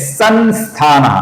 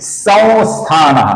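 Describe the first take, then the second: First: The nasal is said as a full n sound. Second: The nasal is said as a very light sound. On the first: The speaker calls it wrong. "अपूर्ण न" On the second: The speaker calls it right. "बहुत ही हल्का उच्चारण"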